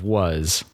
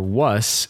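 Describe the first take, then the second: First: The final sound is a buzzing Z. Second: The final sound is a hissing S. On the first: "instead of a Z sound" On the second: "as a S"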